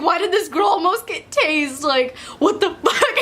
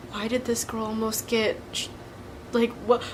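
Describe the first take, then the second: First: The question broken by laughter; laughing retelling. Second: Voiced softly, as classmates' hushed wondering; hushed gossip. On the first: Retold or imitated. Laughing at classmates' reaction. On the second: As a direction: murmur it like curious classmates. Classmates wondering what happened.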